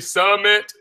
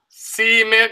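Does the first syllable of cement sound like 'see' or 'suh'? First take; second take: suh; see. First: The first syllable has a short 'uh' vowel. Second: The first syllable has a long 'ee' vowel. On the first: "If you say summit, right, S U H" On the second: "If you say cement, right, S E E"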